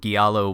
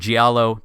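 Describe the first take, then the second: First: The word does not begin with a J sound. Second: The word begins with a J sound. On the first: The speaker calls it wrong. "I think I still pronounced it wrong" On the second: The speaker calls it right. "you got it"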